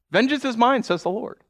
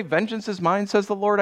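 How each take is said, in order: First: "Vengeance is mine" declared high and strong; emphatic quote. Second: Said in the usual way. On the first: Retold or imitated. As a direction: proclaim it with weight. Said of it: "scripture quote repeated". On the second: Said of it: "didn't God say".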